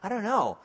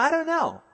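First: Said in the usual way. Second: Much higher exaggerated "I don't know" shrug; high shrugging.

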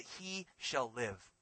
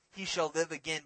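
First: He shall live said very slowly and softer, weight on shall; slow emphatic. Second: Said in the usual way. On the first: Shown as a demonstration. Preacher giving the true wording, slow and weighty. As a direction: draw out He shall live, each word leaned on. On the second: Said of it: "Notice also, it's not".

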